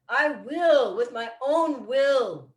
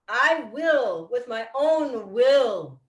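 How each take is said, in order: The two takes are said the same way.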